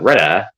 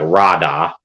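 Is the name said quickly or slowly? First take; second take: quickly; slowly. First: The name is said quickly and smoothly. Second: The name is said slowly and awkwardly. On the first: "They'll be like Rada ... say swiftly off the tongue" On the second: "I'll be like"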